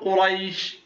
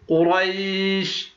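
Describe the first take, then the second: First: The long vowel is held for two counts. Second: The long vowel is held for four counts.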